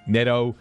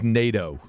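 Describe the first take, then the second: First: The first vowel is closer to a short E. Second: The first vowel is a long A sound. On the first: This is a compromise between two pronunciations. "I kind of split the difference" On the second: This is the pronunciation guide's version. "like the North Atlantic Treaty Organization"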